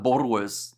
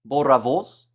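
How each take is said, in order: First: The R is not rolled at all. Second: The R is rolled with a trill. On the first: The speaker calls it wrong. "what did I call it at the start? That probably drives everyone insane" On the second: The speaker calls it right. "Roll the R. I think I'm getting closer"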